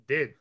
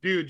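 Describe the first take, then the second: First: "did" for dude, short vowel; clipped dude vowel. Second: Said in the usual way. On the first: Shown as a demonstration. Showing how bros say dude, vowel shortened to "did". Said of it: "you're saying". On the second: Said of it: "you're not saying".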